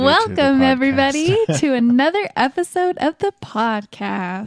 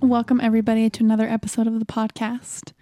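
First: The greeting is said brightly with more energy. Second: The greeting is said flatly with little energy. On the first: The speaker calls it right. "Was that better?" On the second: The speaker calls it wrong. "Don't sound so enthusiastic"

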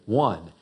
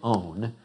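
First: The word sounds like 'won'. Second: The word sounds like 'own'. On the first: The speaker calls it right. "We say one" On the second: The speaker calls it wrong. "We don't say own"

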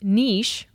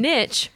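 First: It has a long vowel, rhyming with sheesh. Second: It has a short vowel, rhyming with pitch. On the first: "Niche rhymes with sheesh" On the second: "And niche rhymes with pitch"

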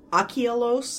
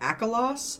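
First: The name is said the Greek way. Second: The name is said as the audiobook says it. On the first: The speaker calls it right. "it is supposed to be... Achilos" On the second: The speaker calls it wrong. "instead of Akalos"

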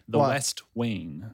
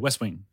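First: The two words are said slowly and separately. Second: The two words are said quickly together. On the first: "The way you said that for some reason was weird to me"

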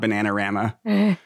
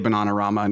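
First: The name is said with an American pronunciation. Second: The name is said with a British pronunciation. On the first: This is not how the band says it. The speaker calls it wrong. "not Bananarama" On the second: This is how the band itself says it. The speaker calls it right. "They're British. They say Bananarama"

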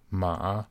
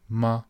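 First: The pitch dips low then rises. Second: The pitch is short and light, unstressed. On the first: It means horse. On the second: It marks a question. "the question word in Chinese"

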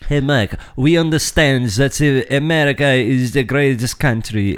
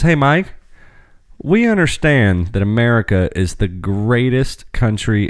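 First: It is read in a put-on French accent. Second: It is read in a plain, natural accent.

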